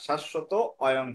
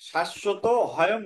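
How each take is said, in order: First: The second word begins with a plain vowel. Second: The second word begins with an h sound. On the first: The speaker calls it right. "শাশ্বত অয়ং হবে" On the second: The speaker calls it wrong. "শাশ্বত হয়ং হবে না"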